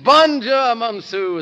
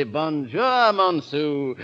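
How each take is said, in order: First: "Bonjour, Monsieur" said high and loud with a French nasal; mock French greeting. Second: Said in the usual way. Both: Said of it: "as the French say".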